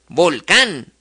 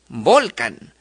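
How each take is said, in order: First: The stress is on the last syllable. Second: The stress is on the second-to-last syllable.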